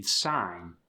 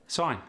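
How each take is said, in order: First: Said in the usual way. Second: South African "Sign", higher with an oi vowel; South African accent. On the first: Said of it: "The long I sound". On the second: Shown as a demonstration. Teaching the South African long I, accented "Sign". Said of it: "more of an oi sound".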